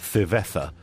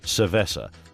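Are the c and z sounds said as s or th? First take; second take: th; s. First: The c and z sounds are said as th. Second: The c and z sounds are said as s. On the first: "the TH pronunciation" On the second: "instead of"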